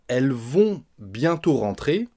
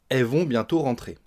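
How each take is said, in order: First: The first word keeps its final l sound. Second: The first word is just a vowel, no l.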